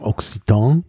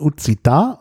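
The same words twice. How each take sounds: First: It is said with a German pronunciation. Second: It is said with the native Occitan pronunciation. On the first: "auf Deutsch würde man vielleicht sagen" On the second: "also richtig ausgesprochen"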